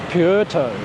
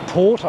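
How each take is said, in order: First: The first syllable sounds like 'pwer'. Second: The first syllable sounds like 'por'. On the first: The speaker calls it right. "It's Pu, Puerto. P U E R" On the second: The speaker calls it wrong. "Sometimes I'll say Pu, Pu, Porto, and it's not Porto"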